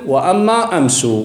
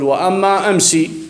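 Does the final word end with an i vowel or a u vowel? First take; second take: u vowel; i vowel. First: The last word ends with a u vowel. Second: The last word ends with an i vowel. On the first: This follows another Arabic dialect's usage. "أما على قول بني تميم فنقول مطلقا" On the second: This follows one Arabic dialect's usage. "بناء على لغة أهل الحجاز"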